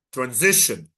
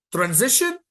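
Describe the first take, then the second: First: Said in the usual way. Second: High rising call. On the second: Shown as a demonstration.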